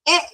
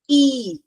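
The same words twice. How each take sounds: First: The vowel is said short and clipped. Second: The vowel is said long and stretched. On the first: "short sound" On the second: "that becomes a long sound"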